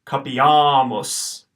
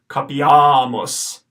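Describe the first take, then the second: First: "capiamos" very slow, the second a held long; slow long vowel. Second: "capiamos" said slowly, short first a; slow model of "capiamos"; careful pronunciation. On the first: Teacher repeating "capiamos" slowly for students to copy. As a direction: stretch "capiamos" syllable by syllable. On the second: Teacher giving the answer "capiamos" to students. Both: Shown as a demonstration. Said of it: "the second A that you see is long".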